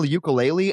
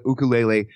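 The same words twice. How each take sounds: First: Ukulele said you-kuh-LAY-lee; everyday American pronunciation. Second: Ukulele said oo-koo-LAY-lay; Hawaiian pronunciation. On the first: Retold or imitated. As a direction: start ukulele with a "you" sound. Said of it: "people will then correct me". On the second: Shown as a demonstration. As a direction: start ukulele with an oo sound. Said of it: "say it the correct way".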